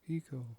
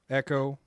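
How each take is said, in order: First: The first vowel is a long 'ee' sound. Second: The first vowel is a short 'eh' sound. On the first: "or Eco, Eco, Eco?" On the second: "Echo, Echo, Echo"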